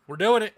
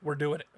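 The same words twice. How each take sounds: First: Higher and louder, thrilled; excited. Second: Said in the usual way. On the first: Real, not acted. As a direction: say it like a big yes. Deciding on the vacation stop.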